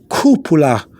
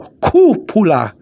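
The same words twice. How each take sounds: First: The stressed syllable is pushed only moderately. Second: The stressed syllable is pushed very strongly. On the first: The speaker calls it right. "but go just go" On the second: The speaker calls it wrong. "sometimes they overdo it"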